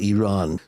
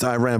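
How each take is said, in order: First: Iran is said with a Middle Eastern pronunciation. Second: Iran is said with an American pronunciation. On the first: "when I talk to my Middle East uh, friends, it's like Iran" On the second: "I'm so American, it's Iran"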